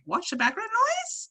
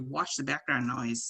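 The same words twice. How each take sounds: First: The pitch rises high on the last word. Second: The pitch falls at the end. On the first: It is a question. "If I was asking the question" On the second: It is a statement. "If I was stating a sentence"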